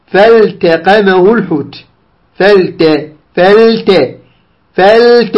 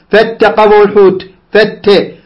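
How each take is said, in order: First: Slow فالتقمه with the l sounded before t; careful unmerged l and t in فالتقمه; clear lam. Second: فاتقمه with the l dropped into a doubled t; faulty merged t in فاتقمه; wrong assimilation. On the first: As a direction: hold the l in فالتقمه, then release the t. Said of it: "إظهار اللام مع التاء". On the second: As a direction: demonstrate "fattaqamahu", no lam in فاتقمه. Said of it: "لا تقل". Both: Shown as a demonstration.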